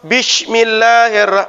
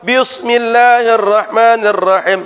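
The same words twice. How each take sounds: First: The s sound is said as sh. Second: The s sound is said as emphatic s. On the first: "pakai shin" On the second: "pakai sad"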